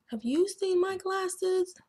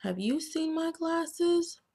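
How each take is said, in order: First: Even higher, pleading little bookworm voice; worried bookworm asking. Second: High-pitched little bookworm voice; worried bookworm asking. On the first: Bookworm asking again about his glasses, higher and pleading. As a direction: ask again, higher and more urgent. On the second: Bookworm asking everyone about his lost glasses, high and worried. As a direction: ask it up high like a small worried worm. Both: Acted. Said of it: "Carney asks".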